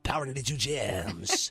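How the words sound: An overdone, heavily put-on radio voice. This is how some other DJs talked on air. The speaker calls it wrong. "I wasn't overkill with my voice, like ooh"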